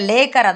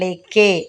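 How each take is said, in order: First: The word ends with an r sound. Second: The word ends with a vowel, no r sound.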